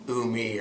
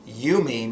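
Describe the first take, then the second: First: The word begins with an 'oo' sound. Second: The word begins with a long 'you' sound. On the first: The speaker calls it wrong. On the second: The speaker calls it right. "a long vowel sound"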